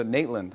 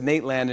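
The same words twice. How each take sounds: First: Nateland reduced to "Nate-lund"; imitated mispronunciation. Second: Nateland with a full "land" vowel; original pronunciation. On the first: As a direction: echo Nateland with a weak, swallowed second vowel. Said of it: "and you go". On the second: Shown as a demonstration. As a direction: say Nateland as "Nate-LAND", both syllables clear. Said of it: "I said Nateland".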